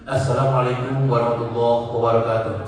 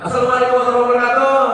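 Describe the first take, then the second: First: It is said in a devout religious-gathering style. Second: It is said in a lively entertainment-host style. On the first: It suits a religious gathering, not a ceremony. "M C pengajian dikana upacara" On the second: It suits an entertainment event. "M C hiburan"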